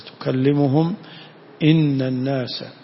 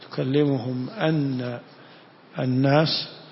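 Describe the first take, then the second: First: The hamza before 'al-nas' has an 'i' vowel. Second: The hamza before 'al-nas' has an 'a' vowel. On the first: It speaks to them, saying: people did not believe. "وقراءة ثانية بكسر الهمزة" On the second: It tells them that people did not believe. "قراءة بفتح الهمزة"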